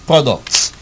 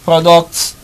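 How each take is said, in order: No difference in how they are said.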